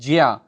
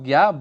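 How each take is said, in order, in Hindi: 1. इसे ja और ya को जोड़कर बोला जाता है। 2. इसे रोज़मर्रा की सहज बोलचाल में बोला जाता है। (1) "उच्चारण जब हम करते हैं तो उसको बोलते हैं ज्या" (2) "साधारण बोलचाल में हम उसको ज्ञा बोल लेते हैं"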